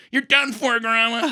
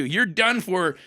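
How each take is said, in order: First: Much higher and louder, crowing the win; triumphant gloat. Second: Said in the usual way. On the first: Retold or imitated. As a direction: rub the victory in grandma's face. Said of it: "and I'm like".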